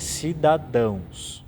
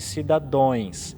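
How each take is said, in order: First: The word ends with an 'ãos' sound. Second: The word ends with an 'ões' sound. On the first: The speaker calls it right. "aqui é cidadãos" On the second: The speaker calls it wrong. "falar erroneamente cidadões"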